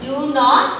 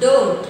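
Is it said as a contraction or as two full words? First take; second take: full words; contraction. First: Both words are said separately in full. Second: The words are run together as one shortened word.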